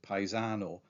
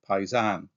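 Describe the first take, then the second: First: The word ends with a full final vowel. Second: The word ends without its final vowel.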